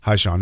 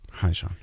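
First: The greeting is said at normal loudness. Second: The greeting is said very quietly.

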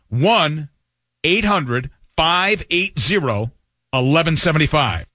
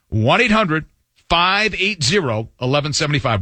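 First: The number is read slowly. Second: The number is read at normal speed.

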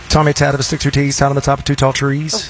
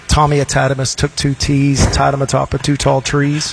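First: It is said fast. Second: It is said at a normal pace.

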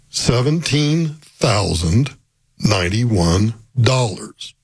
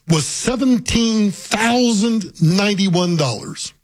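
First: The number is said slowly. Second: The number is said at normal speed.

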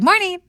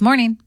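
First: It sounds light and tentative. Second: It sounds firm and assertive.

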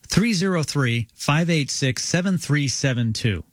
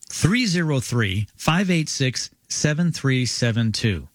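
First: The number is read at normal speed. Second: The number is read more slowly.

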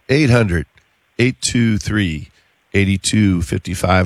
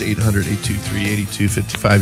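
First: It is said at a slower pace. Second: It is said at a faster pace.

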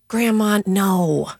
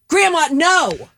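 First: It is said in a supportive tone. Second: It is said in an angry tone.

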